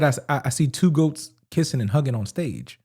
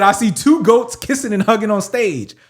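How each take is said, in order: First: Low, soft quote of a lyric; quoting quietly. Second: Slower repeat with TWO standing out; quote repeated clearly. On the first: Rapper's line quoted to co-host, quietly. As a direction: say it low and under your voice. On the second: Asked to say the lyric again, clear and deliberate. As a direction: repeat it for the listener, leaning on "two". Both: Real, not acted. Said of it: "A-, again".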